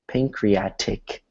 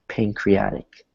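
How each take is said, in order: First: The T is crisp and fully released. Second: The T is soft and almost disappears. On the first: The speaker calls it wrong. "That would be a hard T" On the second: The speaker calls it right. "We say it like a soft T"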